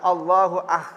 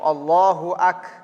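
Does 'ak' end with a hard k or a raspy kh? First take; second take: raspy kh; hard k. First: The final consonant is a raspy kh sound. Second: The final consonant is a hard k sound. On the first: The speaker calls it wrong. "jangan Allahu ak" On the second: The speaker calls it right. "Kena sebut Allahu ak ak ak"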